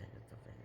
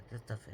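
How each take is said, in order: First: Whispered to herself, much softer; whispered self-scolding. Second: Said in the usual way. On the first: Real, not acted. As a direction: breathe it under your breath at the mistake. Scolding herself over embroidery mistake.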